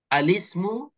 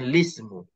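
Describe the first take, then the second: First: The word begins with an added vowel before L. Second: The word begins directly with the L sound. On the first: "baca alismu ikut kaedah yang betul" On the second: "baca wajah lismu tanpa a"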